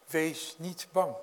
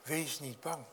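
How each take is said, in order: First: Slow, steady reassurance; reassuring. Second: Much softer, almost hushed; soft repeat. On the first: Jesus calming his frightened disciples, slow and steady. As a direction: let each word settle calmly. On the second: Preacher echoing Jesus' comfort to the listeners, hushed. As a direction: say it again gently, to the congregation. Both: Acted.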